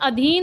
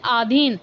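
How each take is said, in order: First: The first vowel is short. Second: The first vowel is long. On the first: The speaker calls it right. "क्या होता है, अधीन होता है।" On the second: The speaker calls it wrong. "बोलते हैं कि आधीन"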